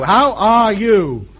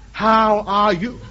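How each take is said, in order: First: Drawn-out slow question. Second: Slow rephrase. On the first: Ham radio man to Tokyo, slowly and carefully. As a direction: spell it out slowly for a foreigner. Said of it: "No, no, no". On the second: Ham radio man to Tokyo, retrying slowly. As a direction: try again, slower and gentler. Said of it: "No, no". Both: Shown as a demonstration.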